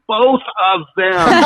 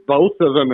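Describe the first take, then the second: First: High, slow, insistent urging with a laugh; emphatic coaching. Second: Said in the usual way. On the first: Retold or imitated. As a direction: nod hard and push the answer across. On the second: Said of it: "he kinda giggles".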